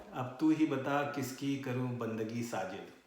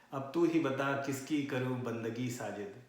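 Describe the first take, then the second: The two takes are said the same way.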